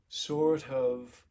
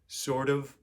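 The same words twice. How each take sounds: First: The t is voiceless, with a slight puff of air. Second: The t is a voiced flap, like a quick d. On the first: It sounds elevated. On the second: It sounds like most Americans. "most Americans would say"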